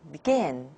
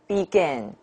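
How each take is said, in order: First: The first syllable is very weak and short. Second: Both syllables are said with even strength. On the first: The speaker calls it right. "the unstressed syllable, is pronounced very, very weak" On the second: The speaker calls it wrong. "not begin"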